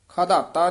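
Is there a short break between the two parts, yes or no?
no. It is said joined, without a break.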